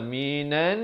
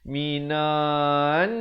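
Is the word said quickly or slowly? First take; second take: quickly; slowly. First: The word is said quickly without delay. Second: The word is drawn out slowly. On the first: The speaker calls it right. "Dia kena minan" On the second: The speaker calls it wrong. "dia akan jadi minan. Ha, jadi lambat"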